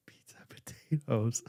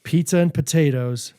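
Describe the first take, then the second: First: Whispered to herself, slowly; slow whisper while working it out. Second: Said in the usual way. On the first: Real, not acted. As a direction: mutter it under your breath while puzzling. Musing to herself over the clues.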